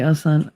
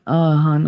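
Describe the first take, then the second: First: "son" said with an s in place of "hun"; misread "hun". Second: Said in the usual way. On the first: Real, not acted. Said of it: "My mouth said son". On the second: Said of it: "My brain said hun".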